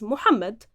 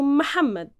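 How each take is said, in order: First: It is said with Modern Standard Arabic pronunciation. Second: It is said with softened Egyptian colloquial pronunciation. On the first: This is the proper, formal form of the name. "in the modern standard Arabic, the proper pronunciation of it is" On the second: This is the everyday, easier form of the name. "in the Egyptian colloquial Arabic, we've transformed it into"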